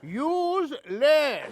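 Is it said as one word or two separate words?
two words. It is split into two separate words. The party uses less of things. The speaker calls it right.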